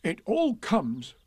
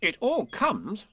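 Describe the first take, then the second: First: High, slow, peevish complaint; grumpy bear, pitched up; cross. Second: High, slow, reproving; prim rabbit's telling-off; stern. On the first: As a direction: grumble it crossly, stretching the words. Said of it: "said Pooh crossly". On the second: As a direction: scold it slowly, pitched up. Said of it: "said Rabbit sternly". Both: A narrator's reading.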